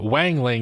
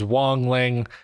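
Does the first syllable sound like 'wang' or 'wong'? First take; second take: wang; wong. First: The first syllable rhymes with 'bang'. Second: The first syllable rhymes with 'song'. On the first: The speaker calls it wrong. "I keep saying Wang Ling instead because I'm stupid and can't say words right" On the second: The speaker calls it right. "I do know that it is Wong Ling"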